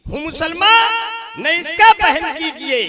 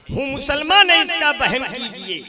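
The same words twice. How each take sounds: First: Declaimed shout. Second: Said in the usual way. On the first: Acted. Repeated, declaimed at full voice.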